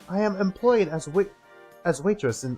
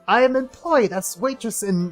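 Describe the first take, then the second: First: It is read in the speaker's ordinary accent. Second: It is read in a put-on Russian accent.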